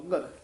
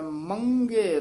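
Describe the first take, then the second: First: The first syllable is plain, with no nasal sound. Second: The first syllable has a nasal sound before g. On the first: The speaker calls it wrong. "ਆਮ ਪਾਠੀ ਸਿੰਘ ਜਿਹੜੇ ਆ ਉਹ ਮੱਗਰ ਹੀ ਕਹਿ ਜਾਂਦੇ ਹਨ, ਸਿੱਧਾ ਹੀ ਕਹਿ ਜਾਂਦੇ" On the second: The speaker calls it right. "ਪਰ ਇਹ ਟਿੱਪੀ ਲੱਗੀ ਹੋਈ ਹੈ ਮੰਗੇਰ, ਇਸ ਤਰ੍ਹਾਂ ਉਚਾਰਨ ਕਰਨਾ ਹੈ"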